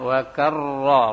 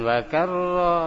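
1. R-nya diucapkan tebal dan penuh. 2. R-nya diucapkan tipis dan ringan. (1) "ra tebal" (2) "Bukan wa karra ra antipis"

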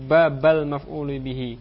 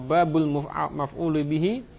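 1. Kata bab berakhir dengan vokal a. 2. Kata bab berakhir dengan vokal u. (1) "boleh pula dibaca dengan nasab" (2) "boleh dibaca dengan rafa"

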